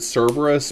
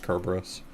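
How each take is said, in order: First: The name begins with a soft S sound. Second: The name begins with a hard K sound. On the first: This is the usual English name. "usually in English, people will pronounce it Cerberus" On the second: This is the Greek name. "the Greek name for Cerberus is with a hard, uh, a hard K sound"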